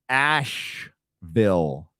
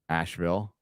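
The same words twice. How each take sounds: First: Each sound is pronounced clearly and carefully. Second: The sounds are run together in everyday speech. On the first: "I gotta enunciate this" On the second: "How do you normally say it?"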